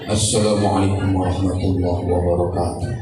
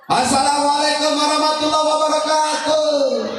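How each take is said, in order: First: It is said low and soft. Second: It is said high, like a public announcement.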